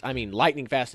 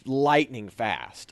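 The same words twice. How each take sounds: First: Said in the usual way. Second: Lightning fast stretched slowly, each word leaned on; drawn-out emphasis. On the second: Real, not acted. Telling the interviewer how quick the runaway was, slow and stressed. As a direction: drag out lightning fast to show his speed.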